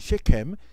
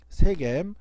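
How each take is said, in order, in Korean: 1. sh로 시작하고 k 소리가 있어요. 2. s로 시작하고 g 소리가 있어요.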